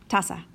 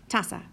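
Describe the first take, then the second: Both takes have the same delivery.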